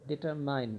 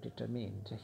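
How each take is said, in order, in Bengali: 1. শেষ সিলেবলটি 'mind'-এর সঙ্গে মেলে। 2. শেষ সিলেবলটি 'pinned'-এর সঙ্গে মেলে। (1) "ডিটারমাইন্ড না, তোমরা ডিটারমাইন্ড উচ্চারণ করো" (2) "তিনি ডিটারমিন্ড ছিলেন"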